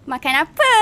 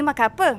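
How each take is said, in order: First: It is said in a lively, playful tone. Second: It is said in a plain, flat tone. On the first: It is meant for a child. "for children we use different tones" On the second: It is meant for an adult. "the tones that we use in daily life for adults"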